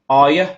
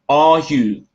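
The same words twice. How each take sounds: First: Both words are shortened and run together. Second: Both words are said fully and separately. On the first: The speaker calls it right. "мы можем их сокращать" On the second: The speaker calls it wrong. "это теперь не are you"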